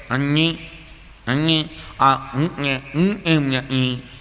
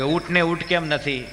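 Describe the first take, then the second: First: Put-on slow nasal-speech boy voice. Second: Said in the usual way. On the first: Nasal boy points out the camel to his mother. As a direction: speak through the nose, slowly. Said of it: "છોકરો ગૂંગણો". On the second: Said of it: "આમ લાગે".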